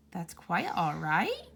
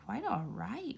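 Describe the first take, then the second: First: Slow, wondering question rising at the end; disbelieving. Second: Softer murmur of the phrase, half to himself. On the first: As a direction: savour it as if it can't be true. Good marvels at the kind words. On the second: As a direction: echo the words under his breath in wonder. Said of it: "repeated Mister Good to himself". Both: Acted.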